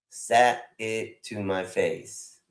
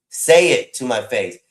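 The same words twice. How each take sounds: First: "Sat" said with a t, like "sat"; slow "Sat it to my face" with a hard t in "Sat"; wrong title read. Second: "Say" said as a clean "say", louder; "Say it to my face" with an open "Say", no t; corrected title. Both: Shown as a demonstration. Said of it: "You got the title wrong".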